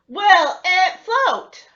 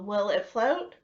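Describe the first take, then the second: First: It is yelled loudly. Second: It is said at normal volume.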